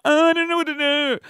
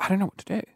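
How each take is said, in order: First: High-pitched, hammed-up helplessness; exaggerated retold panic, pitched way up; mock panic. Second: Softer, understated confusion; mutedly unsure what to do; retold uncertainty. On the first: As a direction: wail it high like a comic fluster. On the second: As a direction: say it softly, at normal pitch. Retold first uncertain reaction.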